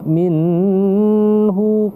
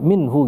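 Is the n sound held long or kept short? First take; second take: held long; kept short. First: The n sound is held long. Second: The n sound is short and clear. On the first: The speaker calls it wrong. "Kenapa kita tidak minhu?" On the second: The speaker calls it right. "dibaca minhu gitu aja"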